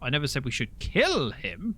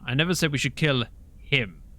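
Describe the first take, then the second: First: The stress is on "kill". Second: The stress is on "him".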